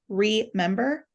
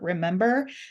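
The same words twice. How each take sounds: First: The word is split as re, then member. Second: The word is said smoothly as one unit. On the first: Put the body back together again. "but we pronounce it like remember" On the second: Simply recall something. "most of our tables say like remember"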